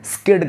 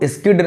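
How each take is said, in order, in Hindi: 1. शब्द सीधे s ध्वनि से शुरू होता है। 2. s ध्वनि से पहले एक अतिरिक्त स्वर आता है। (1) "स्किड कहना है" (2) "आपको स्किड नहीं कहना है"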